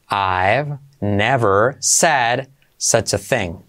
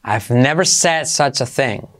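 First: Slow, deliberate teaching pace, each word separate. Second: Said in the usual way. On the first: Shown as a demonstration. Teacher to Spanish-speaking students, slow dictation pace. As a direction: spell it out slowly for learners. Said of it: "teacher models the sentence slowly". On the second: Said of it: "teacher models the sentence".

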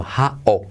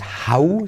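First: "how" as ha-o, falling; open final O. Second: "how" ending in a full U, ha-u, rising; mistaken final U. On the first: Teacher correcting learners, "how" as ha-o. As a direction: end "how" on an O sound. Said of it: "sino how". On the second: Teacher showing the mistake, "how" as ha-u. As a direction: close "how" on a Spanish U. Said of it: "Y no es how". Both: Shown as a demonstration.

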